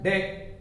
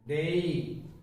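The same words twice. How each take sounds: First: The vowel stays steady without gliding. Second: The vowel glides slightly toward another sound. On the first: The speaker calls it wrong. "We mispronounce it as day" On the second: The speaker calls it right. "there should be a slight gliding"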